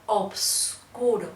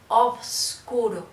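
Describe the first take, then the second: The two takes are said the same way.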